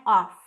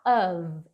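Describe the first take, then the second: First: Off with a hard F; deliberately wrong off, F not V. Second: Teacher models of with a voiced V; correct of. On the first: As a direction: say off with a strong voiceless F. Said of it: "não é off". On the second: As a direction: say of with a V sound at the end. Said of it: "é um sonzinho de V". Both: Shown as a demonstration.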